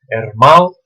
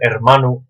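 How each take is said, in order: First: The n between the last vowels is dropped. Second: The n between the last vowels is pronounced.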